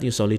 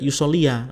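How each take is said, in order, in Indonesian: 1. Kata ini berakhir tanpa tambahan vokal di akhir. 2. Kata ini berakhir dengan tambahan vokal 'a' di akhir. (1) "Ingat yusoli di situ adalah khobar ghairu mufrad" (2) "Jangan dibaca yusolia"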